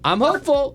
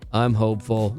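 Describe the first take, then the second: First: It is said in a bright, upbeat tone. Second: It is said in a strained, troubled tone. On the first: Things are going well. "You go, oh, that's really great" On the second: Something is wrong and needs attention. "Like, uh-oh"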